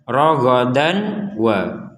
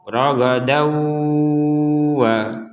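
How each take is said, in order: First: The n sound is pronounced clearly before w. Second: The n merges into a nasalized w. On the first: "itu dibaca dengan jelas" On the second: "tanwinnya dom fathatainnya dimasukkan ke huruf waw"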